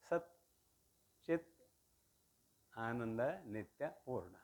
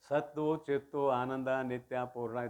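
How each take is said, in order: First: Sat and chit end on a single bare t. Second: Sat and chit end with a doubled t plus vowel. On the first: The speaker calls it right. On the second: The speaker calls it wrong.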